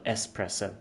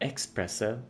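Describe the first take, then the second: First: The word begins with an 'ess' sound. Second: The word begins with an 'ex' sound. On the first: The speaker calls it right. "It is still espresso. There is no X" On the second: The speaker calls it wrong. "her pronunciation of espresso"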